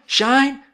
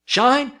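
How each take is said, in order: First: High, louder rising street cry; bootblacks crying again. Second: High, louder street cry; bootblacks crying out. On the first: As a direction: sing it out like a one-note song. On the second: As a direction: call it out like a little shoeshine boy. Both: A narrator's reading. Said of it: "gathered where he stood and cried".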